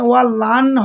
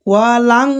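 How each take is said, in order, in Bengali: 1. ন ধ্বনিটি একটি সাধারণ, স্পষ্ট ন। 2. ন ধ্বনিটি একটি টানা অনুনাসিক গুঞ্জনের ভেতরে লুকিয়ে আছে। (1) "ওয়া লান হবে না" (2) "বললাম লাং, এখানেও ইকফার গুণনা"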